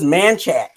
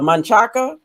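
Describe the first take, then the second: First: The name is shortened, dropping the final vowel. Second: The name is said in full, ending vowel included. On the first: This is how locals actually say it. "and it's just Manchac" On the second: This is how the name is spelled. "the street is it uh"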